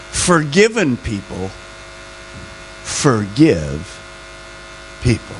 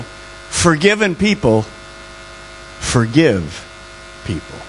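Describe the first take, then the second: First: Very slow, drawn out, fading low on the final people; stretched, trailing second dictation; slower second take. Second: Slow, deliberate, dropping away on people; each word laid down slowly for note-taking; slow dictation. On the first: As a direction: repeat it slower so they catch it. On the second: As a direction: spell it out slowly for them to write. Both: Shown as a demonstration. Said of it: "write one other word down".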